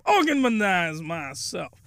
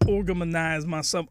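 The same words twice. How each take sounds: First: "organize myself" stretched out slowly; drawn-out emphasis. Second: Said in the usual way. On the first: Shown as a demonstration. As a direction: draw out each word of "organize myself". Repeats the phrase for comic emphasis.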